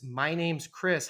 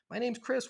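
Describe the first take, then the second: First: Slow, scripted self-intro on the phone; stiff phone script. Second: Higher, easy, upbeat self-intro; friendly natural intro. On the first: Leasing agent answering the phone with a slow, scripted line. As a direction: recite it like a rote call-center line. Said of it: "Worst possible things you could ever say to a renter". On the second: Leasing agent greeting a caller with a higher, friendly, natural intro. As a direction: sound glad to meet the caller. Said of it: "That's how people talk". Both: Retold or imitated.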